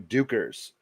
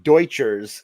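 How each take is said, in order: First: The middle consonant is a plain k sound. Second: The middle consonant is a ch sound. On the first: The speaker calls it right. "the name is pronounced like "put up you dukers,"" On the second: The speaker calls it wrong. "not Deutschers"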